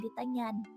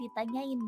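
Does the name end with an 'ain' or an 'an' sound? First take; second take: an; ain. First: The name ends with an 'an' sound. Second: The name ends with an 'ain' sound. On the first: The speaker calls it right. "bukan ditanyan" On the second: The speaker calls it wrong. "banyak banyak yang salah salah ngertiin nama kamu, katanya ditanyain"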